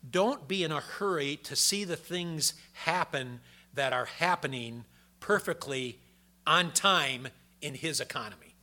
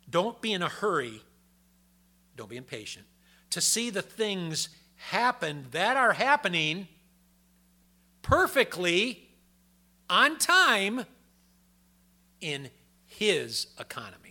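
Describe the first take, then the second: First: It is said at a normal pace. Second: It is said more slowly.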